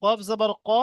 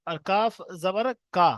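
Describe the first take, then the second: First: Said in the usual way. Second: কাফ said with a long drawn a, unlike short কফ; long kaf. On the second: Shown as a demonstration. Teacher contrasts long কাফ with short কফ for students. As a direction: stretch the a in কাফ জবর কা. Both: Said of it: "একটা হচ্ছে কফ".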